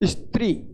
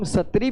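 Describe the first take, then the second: First: The s and t are joined in a cluster. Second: A full vowel separates the s and t. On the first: The speaker calls it right. "इसलिए इस शब्द का उच्चारण कैसे करते हैं?" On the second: The speaker calls it wrong. "इसको हम सत्री भी नहीं बोल सकते"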